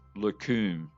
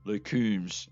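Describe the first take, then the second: First: The name ends without an S sound. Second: The name ends with an S sound. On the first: "with no S on the end" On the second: "as I've been saying it correctly, I believe"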